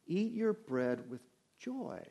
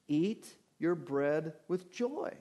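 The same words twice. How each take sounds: First: Slow and soft, leaning on "with joy"; stress on with joy. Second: Said in the usual way. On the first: Shown as a demonstration. Pastor showing his congregation the verse's manner, slow and soft on "with joy". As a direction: savour "joy" as the point of the verse. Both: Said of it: "The emphasis here is on the manner".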